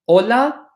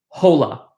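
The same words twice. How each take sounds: First: The word starts directly with the vowel. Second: The word starts with an audible h sound. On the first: The speaker calls it right. "So it is pronounced like hola" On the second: The speaker calls it wrong. "It is not pronounced hola"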